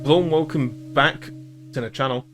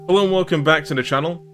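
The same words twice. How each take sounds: First: The greeting is said in a stiff, unnatural way. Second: The greeting is said in a relaxed, natural way.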